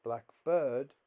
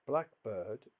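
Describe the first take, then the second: First: "Blackbird" as two words, "bird" louder and stressed. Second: "Blackbird" as one compound, stress on "Black". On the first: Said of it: "is a phrase". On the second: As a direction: hit "Black" in "Blackbird", let "bird" go weak. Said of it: "is a compound". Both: Shown as a demonstration.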